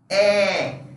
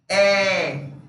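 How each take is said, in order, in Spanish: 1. La vocal es abierta, con la boca más abierta. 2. La vocal es abierta, con la boca más abierta.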